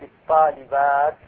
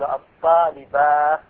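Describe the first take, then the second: First: The word ends with a clear t sound. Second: The word ends with an h sound. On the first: The speaker calls it right. "فالأفصح الوقف بالتاء لا بالهاء" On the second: The speaker calls it wrong. "يقف بالهاء فيقول"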